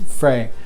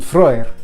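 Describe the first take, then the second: First: The vowel sounds like 'ay'. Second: The vowel sounds like 'oy'. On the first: This is how most people say the name. "as most would pronounce it" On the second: This is the original Old Norse pronunciation. "the E Y makes the the oi, I sound in Old Norse"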